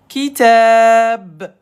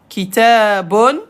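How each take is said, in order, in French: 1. Le mot se termine sur la consonne 'b'. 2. Le mot se termine par un son final 'un'.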